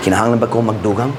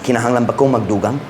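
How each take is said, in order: First: Fast, rising "Kinahanglan ba ko magdugang?" like a gentle threat; quick rising warning. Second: Fast rising "kinahanglan ba ko magdugang?"; quick teasing threat. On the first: God asking us if He must add more, fast and rising. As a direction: toss off the question with a lift. Repeated as God's question. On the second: Father asking son if he needs more, fast and teasing. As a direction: rattle off the question as a warning. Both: Retold or imitated.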